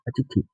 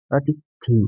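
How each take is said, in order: First: अतिथि with a quick short i at the end; short final vowel. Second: अतिथि with the last vowel drawn out to "thee"; long final vowel. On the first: Teacher shows the short matra, अतिथि ending in short i. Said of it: "इसमें छोटी मात्रा". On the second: Teacher shows the long matra, अतिथि ending in long ee. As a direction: stretch the end of अतिथि into a long ee. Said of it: "इसमें बड़ी की मात्रा आ रही है". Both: Shown as a demonstration.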